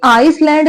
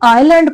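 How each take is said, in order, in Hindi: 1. l से पहले s की आवाज़ सुनाई देती है। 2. l से पहले s की आवाज़ सुनाई नहीं देती। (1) "ये आइसलैंड नहीं पढ़ा जाएगा" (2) "ये आइलैंड पढ़ा जाएगा"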